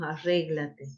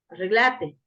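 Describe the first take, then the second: First: The stress is on the second syllable. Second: The stress is on the third syllable. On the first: This is the standard form that people there do not use. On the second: This is the local way of speaking in the northwest.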